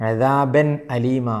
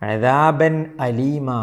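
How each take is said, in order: No difference in how they are said.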